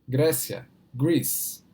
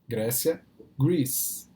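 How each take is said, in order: The two takes are said the same way.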